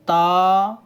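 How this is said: The letter name is said in an Arabic accent.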